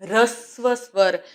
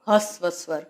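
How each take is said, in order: First: The first word begins with an r sound. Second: The first word begins with an h sound. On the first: The speaker calls it right. "આને બોલાય રસ્વ સ્વર" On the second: The speaker calls it wrong. "નહીં કે હસ્વ સ્વર"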